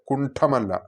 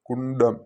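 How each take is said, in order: First: The middle consonant is an aspirated 'ṭha'. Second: The middle consonant is an unaspirated retroflex 'ḍa'. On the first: The speaker calls it wrong. "അല്ലാതെ കുണ്ഠമല്ല" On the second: The speaker calls it right. "ആ ഡായാണ് അവിടെ"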